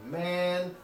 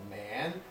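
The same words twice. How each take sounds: First: The pitch rises from a high level. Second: The pitch dips down and comes back up. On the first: "Chinese has a high rising tone similar to ours" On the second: "it has a third tone that kind of dips a little"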